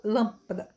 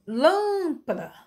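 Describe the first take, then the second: First: "Lâmpada" said compactly, last two syllables very short; brief unstressed syllables. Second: "lâmpada" with "lâm" stretched high, then falling; exaggerated long syllable. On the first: Teacher showing short syllables, "Lâmpada" with a brief ending. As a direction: let "pada" in "Lâmpada" go by briefly. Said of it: "e bem breve". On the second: Teacher showing a dactyl, "lâmpada" with first syllable hugely lengthened. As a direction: draw "lâm" right out in "lâmpada". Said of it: "ela daria uma longa". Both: Shown as a demonstration.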